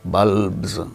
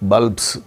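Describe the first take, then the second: First: The final sound is a buzzing z. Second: The final sound is a hissing s. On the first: The speaker calls it right. "pronounced as z" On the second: The speaker calls it wrong.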